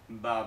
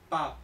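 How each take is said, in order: First: The first consonant sounds like Spanish b. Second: The first consonant sounds like Spanish p. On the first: The speaker calls it wrong. "parece que se pronunciará como el español" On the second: The speaker calls it right. "En chino se pronuncia como pa"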